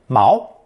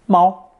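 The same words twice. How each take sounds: First: The word is said in the second tone. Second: The word is said in a non-second tone. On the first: It means anchor. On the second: It means cat.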